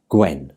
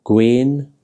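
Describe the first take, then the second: First: Gwen with a short, lower "eh"; short vowel. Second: Gwen with a long, drawn-out "eh"; long vowel. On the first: Teacher contrasting similar words, Gwen said with short vowel. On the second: Teacher contrasting similar words, Gwen said with long vowel. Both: Shown as a demonstration. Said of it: "sound quite different".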